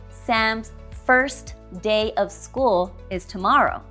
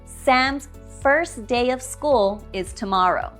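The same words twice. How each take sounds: First: The T at the end of 'first' is pronounced. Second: The T at the end of 'first' is dropped. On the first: The speaker calls it wrong. "Notice I did not say" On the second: The speaker calls it right. "I said Sam's first day"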